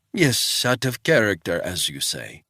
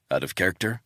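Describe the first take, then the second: First: Put-on old housekeeper echoing the visitor, Swiss accent. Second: Said in the usual way. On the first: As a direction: echo his words like an old Swiss woman. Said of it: "in a thick Swiss accent".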